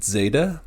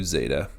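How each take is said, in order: First: Zeta said with a short D before the z, like dzeta; short D start. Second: Zeta said with a plain z and no D sound. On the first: Teacher demonstrates the dzeta way to say zeta. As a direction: start zeta with a quick D sound. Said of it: "a short D at the beginning". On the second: Teacher demonstrates the simple z way to say zeta. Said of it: "some just do zeta". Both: Shown as a demonstration.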